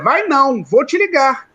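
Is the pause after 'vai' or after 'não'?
after não. The pause comes right after "não".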